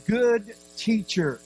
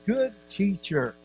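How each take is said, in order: First: "Good" drawn out slowly and pitched high; strong stress on good. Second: "Good" gently leaned on, unhurried; stress on good. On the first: Shown as a demonstration. Preacher repeats young man's greeting, heavy drawn-out stress on "Good". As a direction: stretch and lift the word "Good" for emphasis. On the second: Retold or imitated. Young man addresses Jesus, slight stress on "Good". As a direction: lean lightly on the word "Good". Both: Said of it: "Notice the emphasis on the word good".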